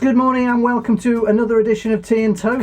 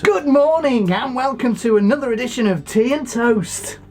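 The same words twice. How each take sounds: First: The greeting is said with little energy. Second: The greeting is said with lively energy. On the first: The speaker calls it wrong. "you didn't sound very enthusiastic then" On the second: The speaker calls it right. "That's good"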